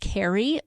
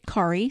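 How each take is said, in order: First: The name is said like English Carrie. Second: The name is said the Norwegian way. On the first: This is the usual way people say it. "Generally speaking, when you see that name, it's pronounced Carrie" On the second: This is how a Norwegian family says it. "I grew up in a Norwegian family ... and we pronounce it Kari"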